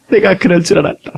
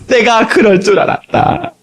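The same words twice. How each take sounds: First: Said in the usual way. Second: Slow drawn-out Lord's voice. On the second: Acted. Lord's reply, said twice.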